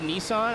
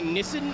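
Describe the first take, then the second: First: The name is said the American way. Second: The name is said the European way. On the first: This is how the speaker says the name. "instead of Nissan" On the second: This is how Europeans say the name. "they stop saying Nissan"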